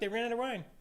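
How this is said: It sounds like a casual, mildly interested remark. The speaker is only reporting the news, not asking for help. "It could be said in that tone, oh look"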